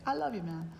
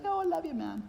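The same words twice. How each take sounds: First: Said in the usual way. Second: Much higher, gushy, sing-song mock affection; hammed-up sentimental gushing; mushy love. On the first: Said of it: "that's a good thing to say". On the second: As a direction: ham up a soppy "I love you". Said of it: "It's not mushy love".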